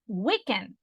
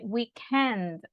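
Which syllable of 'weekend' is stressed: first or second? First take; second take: first; second. First: The stress is on the first syllable. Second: The stress is on the second syllable. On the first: The speaker calls it wrong. "They don't say weekend" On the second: The speaker calls it right. "they say weekend, because in British English ... it might be the second one"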